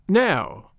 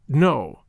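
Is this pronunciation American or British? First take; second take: British; American. First: It is said in a nasal English way. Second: It is said in an American way, not nasal. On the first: "English people say" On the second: "We say"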